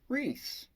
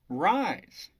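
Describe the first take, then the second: First: The name has an 'ee' vowel sound. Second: The name has an 'eye' vowel sound. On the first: This is the ordinary earthly way to say it. "Here on Earth, we would pronounce this as Reese" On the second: This is an otherworldly way to say it. "So I just call him Rise"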